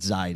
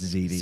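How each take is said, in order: First: The name ends with a 'dye' sound. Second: The name ends with a 'tee' sound. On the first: The speaker calls it wrong. "It's not Zide" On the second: The speaker calls it right. "it's Ziti"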